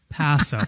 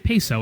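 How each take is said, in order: First: The first vowel sounds like 'ah'. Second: The first vowel sounds like 'ay'. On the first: The speaker calls it right. "Soft A" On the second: The speaker calls it wrong. "Just don't say peso. It's not currency"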